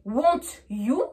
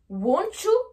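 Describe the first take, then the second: First: The t and y are pronounced separately. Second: The t and y merge into a ch sound. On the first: The speaker calls it wrong. "c'est vraiment une prononciation pure française" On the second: The speaker calls it right. "on va rajouter entre les deux le son C H"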